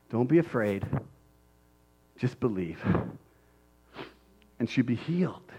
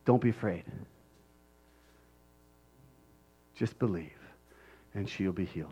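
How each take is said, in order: First: Soft, lower, savoring each phrase; softly repeated. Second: Much softer and lower, reassuring; gently calm his fear; tender reassurance. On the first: Shown as a demonstration. Preacher repeating Jesus's words softly in awe. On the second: Acted. Jesus reassuring Jairus, much softer and lower. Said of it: "Jesus said".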